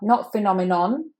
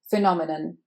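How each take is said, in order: First: The final vowel is a full 'o' sound. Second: The final vowel is a weak schwa sound. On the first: The speaker calls it wrong. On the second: The speaker calls it right. "The final n is a schwa"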